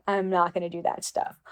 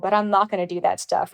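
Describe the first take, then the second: First: A polite but firm no, dropped softer; respectful softer refusal. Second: Said in the usual way. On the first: Retold or imitated. To the photographer, repeating the refusal: much softer and respectful.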